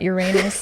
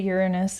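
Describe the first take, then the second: First: The stress is on the second syllable. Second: The stress is on the first syllable. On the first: This is how the speaker says it. "not Uranus like me. I like emphasize the anus" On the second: This is how the other person says it. "how you say Uranus"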